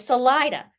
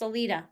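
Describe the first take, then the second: First: It is pronounced like an English word. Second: It is pronounced like a Spanish word. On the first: The speaker calls it right. "But it's Salida" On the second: The speaker calls it wrong. "like a Spanish word would be"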